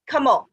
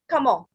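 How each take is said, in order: First: It is said with a French pronunciation. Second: The same.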